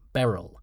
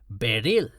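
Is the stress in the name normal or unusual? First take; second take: normal; unusual. First: The name is stressed in the usual way. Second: The name is stressed on an unexpected syllable.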